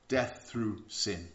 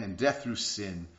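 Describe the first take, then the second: First: Death through sin drawn out, each word weighted; slow it right down and let it land; slow emphasis. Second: Said in the usual way. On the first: Acted. Preacher repeating scripture to the congregation, slow and weighty.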